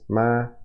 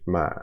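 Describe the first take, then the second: First: The pitch stays high and level. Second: The pitch stays low in the voice. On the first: "High is ma" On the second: "low is uh, kind of, it's a low pitch"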